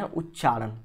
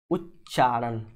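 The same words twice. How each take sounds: First: Said in the usual way. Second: उच्चारण low and split, उच् then चारण; writing-along pronunciation. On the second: Shown as a demonstration. Teacher writing the word for students, उच्चारण low and broken in parts. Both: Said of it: "यहाँ पर हम लिख देते हैं".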